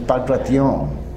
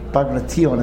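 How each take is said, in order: First: The stress falls on the last syllable. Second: The stress falls before the last syllable. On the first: The speaker calls it right. "The accent I get is in the last syllable" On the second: The speaker calls it wrong. "it's not Bagration"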